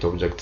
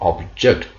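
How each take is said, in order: First: The word is said without extra stress. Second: The word is said with stronger, tenser stress. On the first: It names a thing. "አንደኛና ሁለተኛ ላይ ኦብጀክት ኦብጀክት ሲሆን" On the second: It means to disagree with something. "ሶስተኛው ላይ ግን ጠበቅ ይላል pronunciation ነው"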